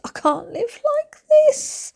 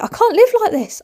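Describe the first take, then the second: First: Very high, slow mock wail; hammed-up falsetto despair; desperate squeal. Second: High-pitched, hammed-up despair; over-the-top exasperated cry; exasperated wail. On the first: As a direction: squeak it out, dragging the words. Exasperated repeat, drawn out. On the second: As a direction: wail it in mock desperation. Exasperated, repeats it more desperately.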